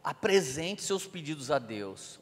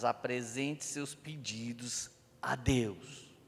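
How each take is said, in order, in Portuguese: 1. É lido em ritmo normal e contínuo. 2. É lido devagar, com pausas propositais.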